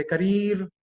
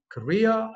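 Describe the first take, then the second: First: "career" as ka-REER with a hard R; R-heavy "career"; common mispronunciation. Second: "career" slow, as kuh-REE-uh; R-less, slow "career"; corrected pronunciation. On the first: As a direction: say "career" with a sounded final R. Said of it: "People say career". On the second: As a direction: say "career" drawn out with a silent final R. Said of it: "It should be career". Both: Shown as a demonstration.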